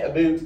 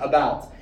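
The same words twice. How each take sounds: First: It is said with a Canadian accent. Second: It is said with an American accent.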